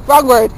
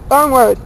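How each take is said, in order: Both takes have the same delivery.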